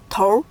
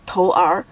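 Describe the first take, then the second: First: "头" with an r-coloured ending, tour; erhua pronunciation. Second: "头儿" read apart as tou, then er; two separate syllables. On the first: Teacher showing the correct reading, "头" with merged r. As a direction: merge an er sound into "头" as one syllable. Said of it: "with 儿化音". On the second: Teacher showing the wrong reading, "头儿" as two syllables. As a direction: keep "头儿" unmerged, each character sounded fully. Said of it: "we don't read them as". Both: Shown as a demonstration.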